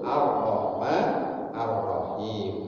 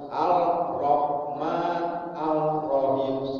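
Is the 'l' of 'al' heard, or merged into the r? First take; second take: merged; heard. First: The l merges into a doubled r sound. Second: The l sound is heard before the r. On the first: The speaker calls it right. "Jadinya harus Ar-Rahman Ar-Rahim" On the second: The speaker calls it wrong. "nggak boleh dibaca Al-Rahman Al-Rahim, salah"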